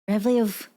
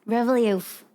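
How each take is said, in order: Both takes have the same delivery.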